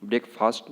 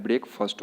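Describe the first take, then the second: First: ब्रेकफास्ट with a long "aa" in "faast"; wrong pronunciation. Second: ब्रेकफास्ट with a short, reduced vowel in "fast": BREK-fust; correct pronunciation. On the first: (ब्रेकफास्ट में "फास्ट" का लंबा आ) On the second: (ब्रेकफास्ट को "ब्रेकफस्ट" बोलें) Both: Shown as a demonstration. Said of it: "ब्रेकफास्ट नहीं होता है".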